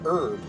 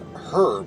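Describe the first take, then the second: First: The H at the start is silent. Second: The H at the start is pronounced. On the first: The speaker calls it right. "I hate how the H is silent" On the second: The speaker calls it wrong. "as in the name herb"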